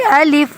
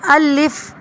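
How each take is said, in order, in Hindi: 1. यह शब्द नरमी से और जल्दी बोला जाता है। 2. यह शब्द धीरे और ज़ोर से बोला जाता है। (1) "नरमी से जल्दी से" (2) "इस तरह से नहीं पढ़ना"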